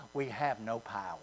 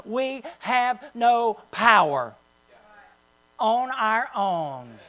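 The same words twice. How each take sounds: First: Much softer, lower, sinking defeat on "We have no power"; depressed. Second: Slow, steady and matter-of-fact on "We have no power"; statement of fact. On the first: Pastor shows the congregation the defeated way, deflated. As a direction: let "We have no power" drop away, hopeless and quiet. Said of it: "not saying it in a depressed way". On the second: Pastor tells the congregation the right way, calm matter-of-fact. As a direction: say "We have no power on our own" slowly as plain truth, no gloom. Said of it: "as a statement of fact". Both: Shown as a demonstration.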